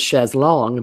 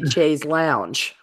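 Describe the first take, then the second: First: The second word sounds like 'long'. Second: The second word sounds like 'lounge'. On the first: This matches how the word is spelled. "I found out it was chaise longue because it's not even spelled lounge" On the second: This is how people in the South say it. "in the South they say chaise lounge"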